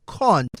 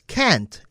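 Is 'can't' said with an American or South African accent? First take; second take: South African; American. First: It is said with a South African accent. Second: It is said with an American accent. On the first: The speaker calls it right. "and I then say no" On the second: The speaker calls it wrong. "she sometimes says can't"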